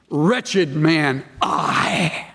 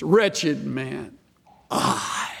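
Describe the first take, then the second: First: "I" set apart and drawn out in a voiced cry; emphatic I. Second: "I" set apart after a pause, dropped to an unvoiced hush; pause, then breathe "I" softly; emphatic I. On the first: Preacher quoting the wretched man's confession, emphatic I. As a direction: land on "I" alone, as a cry. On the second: Preacher repeating the confession for emphasis, hushed I. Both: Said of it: "for emphasis".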